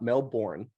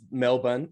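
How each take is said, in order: First: The name is said with a non-Australian pronunciation. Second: The name is said with an Australian pronunciation. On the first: The speaker calls it wrong. "It's not Melbourne" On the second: The speaker calls it right. "I'll say it in, in the Australian way"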